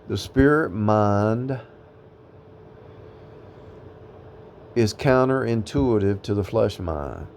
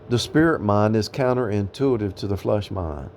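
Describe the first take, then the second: First: The sentence is spoken slowly and deliberately. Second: The sentence is spoken at a normal pace.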